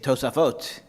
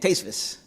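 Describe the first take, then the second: First: Said in modern Israeli Hebrew, ending in t. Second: Said in the lecturer's style, ending in s. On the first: This is how the modern Hebrew model would say it. "They would say Tosafot" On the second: This is how the lecturer actually says it. "the lecturer is saying Tesvis"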